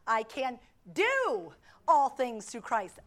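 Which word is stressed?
do. The stress falls on the word "do".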